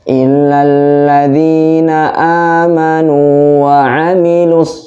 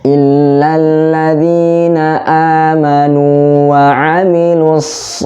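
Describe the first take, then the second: First: The final s sound is cut off abruptly. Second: The final s sound flows on smoothly. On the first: The speaker calls it wrong. "tidak boleh" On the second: The speaker calls it right. "harus seperti harus mengalir"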